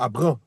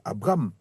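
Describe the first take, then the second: First: The last vowel is nasal with no final M. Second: The M is clearly pronounced at the end. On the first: The speaker calls it wrong. "On dit pas Abram" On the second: The speaker calls it right. "c'est Abram"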